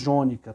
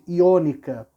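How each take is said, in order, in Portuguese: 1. A palavra começa com som de 'j'. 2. A palavra começa com som de 'ee'. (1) "Nós, na verdade, falamos jônica" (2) "a pronúncia correta talvez fosse iônica"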